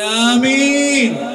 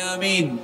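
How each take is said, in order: First: It is said loudest of all. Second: It is said more loudly.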